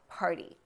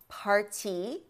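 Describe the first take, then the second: First: The t is a quick light tap. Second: The t is a full stop, not tapped. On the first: "There's a tapping there" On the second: "No alveolar tapping"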